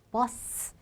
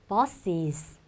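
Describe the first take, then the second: First: Two s sounds clash with no vowel between. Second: A vowel separates the two s sounds smoothly. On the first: The speaker calls it wrong. "발음이 두 번 나오니까 되게 부딪히는 느낌이" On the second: The speaker calls it right. "훨씬 부드럽죠"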